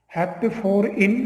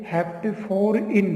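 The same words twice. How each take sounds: First: Said in the usual way. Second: Slow, spelled-out naming of the part; slow dictation. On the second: Shown as a demonstration. Teacher slowly dictating the compound name to students.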